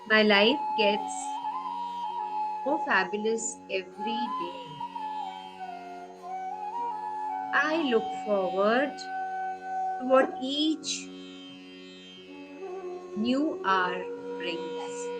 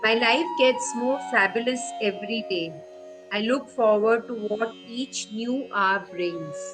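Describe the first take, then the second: First: It is said softly and slowly. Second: It is said at normal volume and pace.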